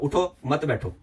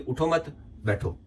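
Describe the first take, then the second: First: The pause comes after 'uthho'. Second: The pause comes after 'mat'.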